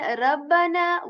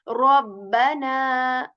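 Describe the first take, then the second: First: The r sound is light and thin. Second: The r sound is heavy and full. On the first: The speaker calls it wrong. "rather than rabbana" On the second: The speaker calls it right. "ra becomes heavy"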